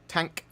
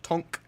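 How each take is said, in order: First: The vowel sounds like the 'a' in cat. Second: The vowel sounds like the 'o' in top.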